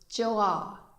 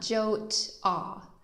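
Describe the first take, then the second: First: The vowels join with no consonant between them. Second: A t sound is heard between the vowels. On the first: The speaker calls it right. "this word is Joa" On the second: The speaker calls it wrong. "definitely not Jot-ah"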